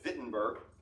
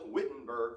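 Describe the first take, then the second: First: The name begins with a V sound. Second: The name begins with a W sound. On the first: This is how German speakers say it. "they would call it" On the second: This is how English speakers say it. "we would call it"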